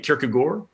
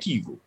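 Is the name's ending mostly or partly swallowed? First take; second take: partly; mostly. First: The final syllable is partly swallowed. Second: Most of the ending is swallowed. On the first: "the A-A-R-D is sort of swallowed" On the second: "way more of it gets swallowed"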